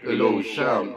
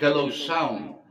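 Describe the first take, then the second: First: The voice sounds very deep and low. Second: The voice sounds slightly robotic, like auto-tune. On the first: "napakababa ng boses ko" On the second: "parang may ano, uh, auto-tune... medyo may pagka-robotic"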